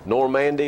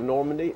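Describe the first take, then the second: First: It is said the local Tennessee way. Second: It is said the ordinary, standard way. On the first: "Normandy is one of them" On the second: "instead of Normandy"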